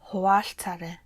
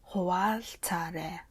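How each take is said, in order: First: The word is said at normal speed. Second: The word is said slowly and deliberately.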